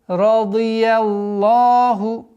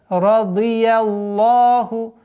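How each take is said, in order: No difference in how they are said.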